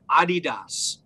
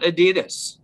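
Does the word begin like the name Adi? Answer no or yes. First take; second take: yes; no. First: The word begins like the name Adi. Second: The word does not begin like Adi. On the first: The speaker calls it right. "he's not saying it wrong. It's named after a guy named Adi Dassler" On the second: The speaker calls it wrong. "that's not Adidas"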